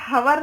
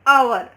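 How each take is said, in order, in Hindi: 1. शुरू का h उच्चारित होता है। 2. शुरू का h मौन होता है। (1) "हवर नहीं बोलते" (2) "ओ से प्रोनाउंस होता"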